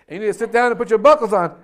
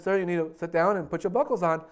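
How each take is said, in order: First: Loud, fast, insistent command as the stewardess; firm order. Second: Said in the usual way. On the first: Acted. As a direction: lay down the law to a stubborn passenger. Stewardess insists after his boast.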